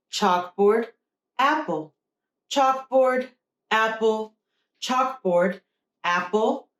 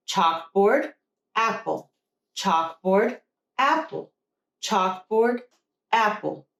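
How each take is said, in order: Both takes have the same delivery.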